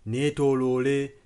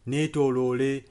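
The two takes are said the same way.

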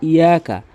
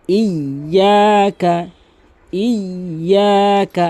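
First: ইয়াকা said quickly with a single light y; missing tashdid. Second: ইয়াকা chanted with a held, doubled y; forceful tashdid. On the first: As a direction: say ইয়াকা without doubling the y, unchanted. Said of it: "অনেকেই বলে কিন্তু". (তাসদিদ ছাড়া হালকা ইয়াকা) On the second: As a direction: lean hard on the doubled y in ইয়াকা. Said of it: "শক্তি দিয়ে তাসদিদ হিসাবে উচ্চারণ করবেন". (ইয়াকা-তে শক্তি দিয়ে তাসদিদ) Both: Shown as a demonstration.

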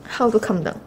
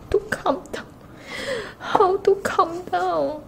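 First: Said in the usual way. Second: Fangirling whine. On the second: Real, not acted. Overexcited fan asking how to calm down, high whine. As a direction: whine it high, as if unable to cope.

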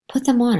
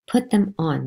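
First: Sharp, louder command from mother; firm order. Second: A bit louder, firm repeat of the order. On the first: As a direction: order it, no arguing. Mother ordering child to dress. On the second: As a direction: repeat the command, tired of arguing. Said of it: "my mother said". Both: Acted.

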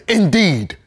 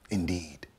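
First: High, loud, falling exclamation; ringing, scornful "Indeed". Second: Low, soft, falling verdict; soft, low "Indeed", bitterly understated; quiet scorn. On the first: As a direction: throw out "Indeed" high and hard. Scornful echo of the creed. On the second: Bitter comment after quoted scripture. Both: Acted.

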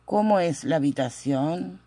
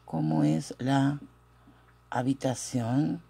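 First: Said in the usual way. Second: Feed it to learners in pieces; dictation pace. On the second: Shown as a demonstration. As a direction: split by a long pause, softer and lower at the end. Teacher dictates question slowly. (dictado pausado, en dos partes)

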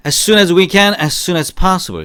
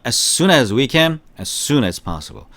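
First: Model phrase. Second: Slow repeat-after-me. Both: Shown as a demonstration. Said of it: "시작".

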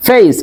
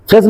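First: ফেস as "feys"; correct pronunciation. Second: ফেস as short "fes"; wrong pronunciation. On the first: Teacher answers what we will say, correct "feys" for ফেস. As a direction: glide from e to i in ফেস. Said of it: "এটাকে কি বলবো?". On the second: Teacher asks if we should say it, ফেস mispronounced with plain "e". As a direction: say ফেস with pure e. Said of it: "Not ফেস". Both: Shown as a demonstration.

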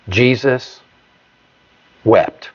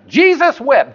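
First: Jesus and wept each set apart by long pauses; slow solemn reading. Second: High, quick playful Jesus wept; mock proud recital. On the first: Acted. Preacher reading the shortest verse to the congregation, slow and solemn. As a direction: let Jesus hang, then drop a slow, falling wept. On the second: Congregant proudly reciting the verse at home, high and playful. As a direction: rattle it off like a proud kid. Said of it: "and you say".

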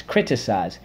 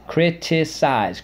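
First: Said in the usual way. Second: Criticize. high and stretched slowly; slow drilled word. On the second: Shown as a demonstration. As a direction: model Criticize. slowly and clearly. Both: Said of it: "let's go".

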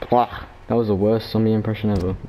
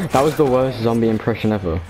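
First: Said in the usual way. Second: Laughing at his own bad zombie moan. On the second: Real, not acted. Gamer to viewers, mocking his own zombie impression, laughing. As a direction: giggle through the line.

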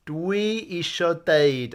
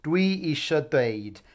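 First: "Dwi isio deud" said slowly and clearly; teacher's slow clear model; slow model phrase. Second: "Dwi isio deud" slower and even; calm repeat for learners; steady teacher repeat; repeat model. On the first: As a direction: lay out each word for learners to copy. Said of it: "I want to say". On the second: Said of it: "it really doesn't matter which way you say it". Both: Shown as a demonstration.

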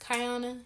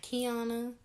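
First: Kiana drawn out as "kai-AH-nuh"; first syllable of Kiana rhymes with "sky"; correct name pronunciation. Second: Kiana drawn out as "kee-AH-nuh"; first syllable of Kiana rhymes with "key"; rejected name pronunciation. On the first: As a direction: slowly say Kiana with an "eye" sound, kai-AH-nuh. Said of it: "it's pronounced". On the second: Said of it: "not Kiana". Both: Shown as a demonstration.

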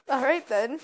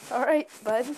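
First: Sarcastic. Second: Dismissive "All right" with falling tune; sarcastic falling tone. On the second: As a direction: drop the pitch on "right" dismissively. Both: Real, not acted.

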